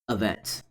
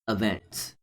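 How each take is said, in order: No difference in how they are said.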